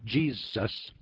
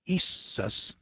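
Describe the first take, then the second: First: The name begins with a 'j' consonant sound. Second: The name begins with an 'ee' vowel sound. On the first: "instead of Jesus" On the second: "I'm pronouncing that Iesus instead of Jesus"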